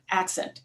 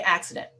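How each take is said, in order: First: "Accent" said quietly, two syllables, correcting the slip; softly fix the word to "Accent"; quick correction. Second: "accident" said by mistake for accent, full three syllables; slip of the tongue. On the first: Speaker corrects her slip to "Accent" for the audience, quietly. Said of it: "excuse me". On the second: Speaker misnames the dispatcher's accent as "accident" in passing. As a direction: misspeaks "accident" casually, then corrects herself. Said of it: "Accent, excuse me". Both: Real, not acted.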